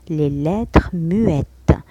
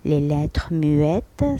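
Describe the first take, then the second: First: Muettes drawn out slowly; teacher modelling; slow careful French. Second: Muettes slow, rising at the end; teacher repeating; slow careful French. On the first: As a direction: spell out Les lettres muettes slowly. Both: Shown as a demonstration. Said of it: "إذن muette".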